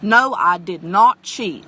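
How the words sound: It sounds stiff, formal and defensive. The speaker may be hiding the truth. The speaker calls it wrong. "in complete sentences instead of casually"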